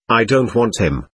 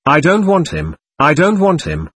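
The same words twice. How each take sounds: First: Said in the usual way. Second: Higher, mildly mournful protest; mournful cry. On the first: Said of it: "said Ilashaw suddenly". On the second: A narrator's reading. Sick boy refuses another dog, understated mournful cry. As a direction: cry it out with a touch of grief. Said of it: "with a mournful break in his voice".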